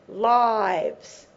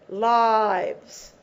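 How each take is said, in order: No difference in how they are said.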